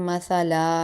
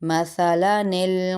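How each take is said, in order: First: The word ends in a long stretched vowel. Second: The word ends linked into a following 'nil'. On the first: The speaker calls it wrong. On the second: The speaker calls it right.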